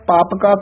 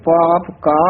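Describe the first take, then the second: First: The two words are run together as one. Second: The two words are kept apart. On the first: The speaker calls it wrong. "ਇਕੱਠਾ ਨਹੀਂ ਕਹਿਣਾ" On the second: The speaker calls it right. "ਇਸ ਤਰ੍ਹਾਂ ਬੋਲਣਾ"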